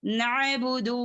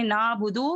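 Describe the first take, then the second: First: नअबुदु with ain squeezed in the throat after na; correct throat ain. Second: नाबुदु with a smooth long aa, no throat catch; wrong missing ain. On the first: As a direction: sound the throat consonant in नअबुदु. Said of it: "नहीं". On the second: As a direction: glide over the ain in नाबुदु as a mistake. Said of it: "इस तरीके से नहीं करेंगे". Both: Shown as a demonstration.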